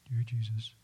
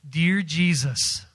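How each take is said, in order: First: It is said quietly and weakly. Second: It is said loudly and strongly.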